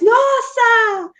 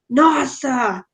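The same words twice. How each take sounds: First: It is said in a surprised tone. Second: It is said in an angry tone. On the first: "or you can be surprised" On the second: "you can be angry, like"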